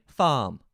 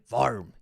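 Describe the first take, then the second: First: "farm" drawn out with the R silent, as "faahm"; slow, R-less English "farm"; imitated English non-rhotic R. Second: "farm" with a strongly sounded R, West Country style; drawn-out "farrm" with the R curled; imitated rhotic R. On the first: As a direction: mimic English "farm" with a long vowel and no R. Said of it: "just forgetting the R". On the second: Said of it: "And he's saying farm".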